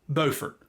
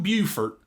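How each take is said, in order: First: The name is said the local way. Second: The name is said the South Carolina way. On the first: This is how people in this town say it. The speaker calls it right. "around here it's pronounced Beaufort" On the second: This is how the South Carolina town is said. The speaker calls it wrong. "not Beaufort, like South Carolina"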